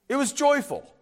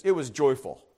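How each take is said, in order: First: "joyful" lifted higher for emphasis; stress on joyful. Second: Said in the usual way. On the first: Shown as a demonstration. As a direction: lean into "joyful". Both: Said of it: "it deserves emphasis".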